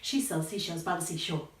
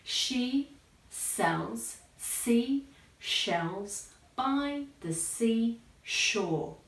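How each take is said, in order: First: The sentence is said quickly. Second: The sentence is said very slowly. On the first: "gradually increase your speed" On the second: "you need to say it very slowly at first"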